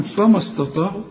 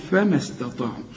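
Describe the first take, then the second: First: فما استطاعوا with thick, dark 'fa-ma', questioning; mock mistake, higher and rising, darkened فما استطاعوا; wrongly heavy. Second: فما استطاعوا with thin 'fe-mes', mim linked to sin; light fa and mim. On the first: Teacher asks whether this is allowed, wrongly heavy. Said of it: "كلها خطأ يا راجل". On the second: Teacher models the linked words, light fa and mim. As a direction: join فما استطاعوا smoothly, short light vowels. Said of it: "فبشبك الميم مع السين". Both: Shown as a demonstration.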